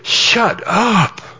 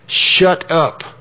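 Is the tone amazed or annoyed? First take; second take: amazed; annoyed. First: It sounds excited and amazed, like disbelief. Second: It sounds sharp and annoyed, like a command. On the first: What was said is amazing. "the amazing one" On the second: The listener should stop talking. "when you say shut up like that, it means close your mouth and don't say anything"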